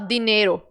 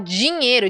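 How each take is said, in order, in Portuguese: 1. O d é um d simples e duro. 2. O d soa como 'dj' antes do i. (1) "A gente não fala assim" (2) "a gente fala dinheiro, de, de dinheiro"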